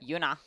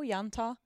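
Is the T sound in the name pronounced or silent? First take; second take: silent; pronounced. First: The T sound in the middle is silent. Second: The T sound in the middle is pronounced. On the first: "sometimes we just silence things" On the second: "Because it's got a T"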